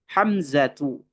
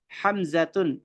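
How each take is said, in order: First: The word ends on a vowel without n. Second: The word ends with an added n sound. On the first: The speaker calls it right. "kita tidak menggunakan tanwin" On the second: The speaker calls it wrong. "itu tidak bisa ya, itu salah"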